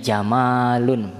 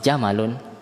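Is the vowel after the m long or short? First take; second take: long; short. First: The vowel after the m is long. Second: The vowel after the m is short. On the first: It means beauty. "ini jamalun, mimnya bermat" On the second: It means a camel. "Kalau jamalun beda"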